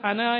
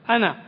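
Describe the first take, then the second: First: The final vowel is drawn out long. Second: The final vowel is kept short. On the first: The speaker calls it wrong. "അന എന്ന് നീട്ടി പോകുന്നത് കേൾക്കാറുണ്ട്" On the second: The speaker calls it right. "നീട്ടാതെയാണ് ഉച്ചരിക്കുന്നത്"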